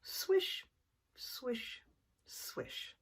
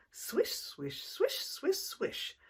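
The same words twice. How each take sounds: First: Hushed, breathy swish, fading away; slow swishes. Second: Quick swishes, jumping higher; fast swishes. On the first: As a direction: whisper the slow circling swish. Slow circles. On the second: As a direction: whip the swishes up high and fast. Fast circles. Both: Acted.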